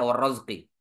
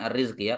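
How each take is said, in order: First: The first vowel of the word is 'a'. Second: The first vowel of the word is 'i'. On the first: The speaker calls it right. "di sini dibaca war-razqi" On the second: The speaker calls it wrong. "bukan ar-rizqi"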